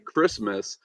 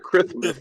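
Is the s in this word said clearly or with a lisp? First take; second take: clearly; lisp. First: The s sound is said clearly, without a lisp. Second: The s sound is said with a lisp. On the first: This is what was actually said. "he would say Christmas" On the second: This is what the altered microphone played back. "in his headphones he would hear Christmas"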